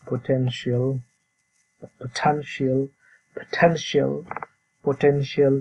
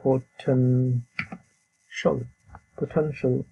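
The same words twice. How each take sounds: First: "পটেনশিয়াল" with a full "-shi-al" ending; wrong take of "পটেনশিয়াল", both final vowels sounded; common mispronunciation. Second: "পটেনশিয়াল" as "po-ten-shol", first split slowly, then whole; teacher's careful "po-TEN-shl"; correct pronunciation. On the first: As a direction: show the local "po-ten-shi-al" for "পটেনশিয়াল". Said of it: "যেভাবে উচ্চারণ করি". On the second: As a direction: model "পটেনশিয়াল" with ending cut to "shl". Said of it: "কিন্তু এর উচ্চারণ হলো". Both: Shown as a demonstration.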